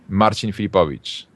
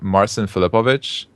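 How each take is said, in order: First: The name is said flat, with Polish pronunciation. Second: The name is said with an English pronunciation. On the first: "in Polish, it's flat" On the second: "when I'm talking to people in English"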